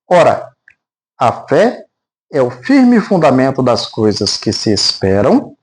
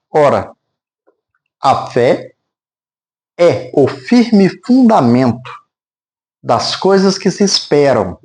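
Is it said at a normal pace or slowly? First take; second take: normal; slowly. First: It is read at a normal, steady pace. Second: It is read slowly with deliberate pauses.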